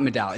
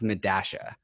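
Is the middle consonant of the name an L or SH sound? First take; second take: L; SH. First: The middle consonant sounds like an L. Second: The middle consonant sounds like SH. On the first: The speaker calls it wrong. "It's not Medalla" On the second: The speaker calls it right. "It's pronounced Medasha"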